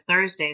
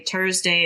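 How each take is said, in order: First: Said in the usual way. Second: "Thursday" said with a hard T, as Tursday. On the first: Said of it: "instead of Thursday". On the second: Shown as a demonstration. Instructor quoting parents' accent, "Thursday" as Tursday. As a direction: start "Thursday" on a plain T. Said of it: "they say Thursday instead of Thursday".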